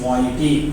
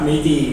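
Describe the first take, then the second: First: The word begins with a 'my' sound. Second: The word begins with a 'may' sound. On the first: The speaker calls it right. "It's మాయిటీ" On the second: The speaker calls it wrong. "It's not మెయితి"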